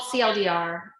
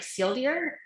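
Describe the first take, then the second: First: Said in the usual way. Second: C L D R blurred into "seal deer"; "seal deer" as one quick run-together name; said fast, run together. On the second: Shown as a demonstration. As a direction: slur the letters into two words, "seal deer". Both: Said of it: "if you say it really fun, fast".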